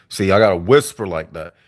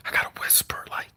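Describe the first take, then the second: First: Said in the usual way. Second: Quick unvoiced whisper. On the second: Shown as a demonstration. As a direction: whisper it fast and hushed.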